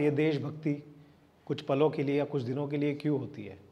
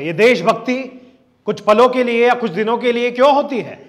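First: It is said slowly in a relaxed way. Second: It starts with high energy right away. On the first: The speaker calls it wrong. "आराम से" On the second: The speaker calls it right. "Starting से उठाओ"

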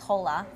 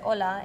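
First: The word starts with an audible h sound. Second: The word starts with a vowel, no h sound. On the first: The speaker calls it wrong. "Nobody says hola, unless you have a really bad accent" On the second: The speaker calls it right. "In Spanish, you say hola"

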